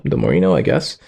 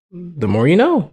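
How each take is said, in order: First: Much lower pitch; low underwhelmed repeat. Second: Raised pitch, falling at the end; singsong discovery. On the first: Just learned how to open a tab, low underwhelmed. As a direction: drop it right down into the chest. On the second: Just learned how to open a tab, singsong. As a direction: lilt it high like a slogan. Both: Pretend.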